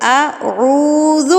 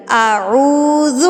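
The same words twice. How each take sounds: First: اعوذ drawn out slowly, ending cleanly on ذال; correct recitation. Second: اعوذ drawn out slowly, a wrong vowel added, aruz; wrong recitation demo. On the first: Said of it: "اعوذ نہیں پڑھنا". (صحیح ادائیگی: اعوذ آہستہ) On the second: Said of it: "اعوذ غلط ہے". (غلط ادائیگی: اعوذ لمبا) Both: Shown as a demonstration.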